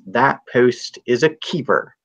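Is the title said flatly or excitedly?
flatly. The title is said in a plain, flat way. The speaker calls it wrong.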